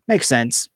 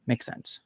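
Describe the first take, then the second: First: Said in the usual way. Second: "Makes sense" whispered under the breath; whispering. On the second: Real, not acted. Whispered aside, then repeated aloud.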